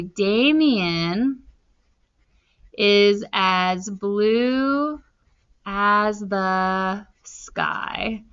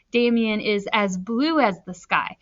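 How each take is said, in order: First: Slow, spaced dictation. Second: Said in the usual way. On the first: Shown as a demonstration. Teacher writing a simile example, slow dictation. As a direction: drag each word while writing. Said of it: "I'm gonna say". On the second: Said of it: "I'm saying he was blue".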